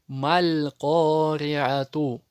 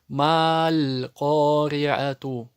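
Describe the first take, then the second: First: The first vowel is short, joined to the next sound. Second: The first vowel is stretched out long. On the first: The speaker calls it right. "она не тянется" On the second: The speaker calls it wrong. "Ошибку допускают и читают тянут его"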